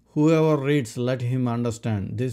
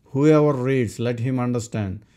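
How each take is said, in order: Both takes have the same delivery.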